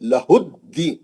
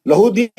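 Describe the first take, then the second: First: The d sound is held and doubled. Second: The d sound is short and single. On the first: The speaker calls it right. "तजदीद है दाल पे" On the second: The speaker calls it wrong. "लहुदीन नहीं हो"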